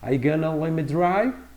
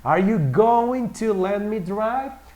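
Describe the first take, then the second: First: The words 'going to' are reduced to 'gonna'. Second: The words 'going to' are said in full.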